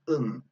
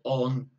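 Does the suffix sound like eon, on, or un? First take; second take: un; on. First: The suffix is a short, reduced 'un' sound. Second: The suffix is a full, open 'on' sound. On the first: The speaker calls it right. "Listen to the pronunci pronunciation" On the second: The speaker calls it wrong. "not eon or on"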